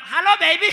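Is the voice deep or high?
high. It is said in a high soprano voice.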